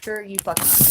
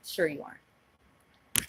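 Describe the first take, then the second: First: Sharper, forceful "Sure you fucking aren't"; angry. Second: Slow, drawn-out sarcastic "Sure you aren't"; dry disbelief, drawn out slowly. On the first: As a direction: snap it back with heat. Repeated with more force. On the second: Sarcastic disbelief at his claim. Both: Real, not acted.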